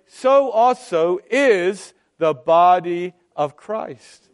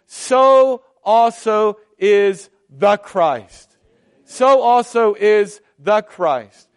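First: Said in the usual way. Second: Slow and louder, leaning on "So also is the Christ"; stress on the Christ. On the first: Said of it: "we would say". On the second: Shown as a demonstration. Preacher correcting the expected wording, slow emphatic stress. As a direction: land each word of "So also is the Christ" heavily. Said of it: "But he doesn't say that".

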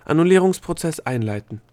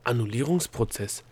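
First: Loud, high official proclamation; commanding order in a raised voice; raised-voice announcement. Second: Said in the usual way. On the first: A narrator's reading. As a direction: proclaim the procedure like an alarm system. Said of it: "plötzlich mit erhobener Stimme". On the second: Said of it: "wiederholte Opal".

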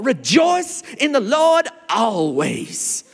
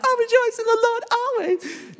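First: Put-on high, slow American preacher accent. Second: Very high falsetto, mock-blissful; mock gushing. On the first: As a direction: stretch it out like a booming American preacher. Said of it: "I went into an American accent". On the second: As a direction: parody an over-emotional believer in a high falsetto. Mocking rejoicing as mere feeling.

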